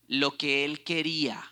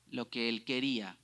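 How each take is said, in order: First: "quería" pressed, louder, falling; emphatic. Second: Said in the usual way. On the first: Shown as a demonstration. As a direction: hit "lo que él quería" hard. ("quería" enfatizado, más fuerte)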